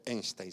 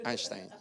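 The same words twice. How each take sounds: First: EINSTEIN with "ein" as spelt, like "EYN-stayn"; wrong pronunciation. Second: EINSTEIN with an opening "ain", like "AYN-shtain"; corrected pronunciation. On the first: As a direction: say Einstein wrongly, first vowel as in "day". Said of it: "No se dice Einstein". (Einstein mal dicho, con "e" como se escribe) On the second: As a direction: say Einstein the German way, vowel as in "eye". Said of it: "se dice Einstein". (Einstein bien pronunciado, "áinstain") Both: Shown as a demonstration.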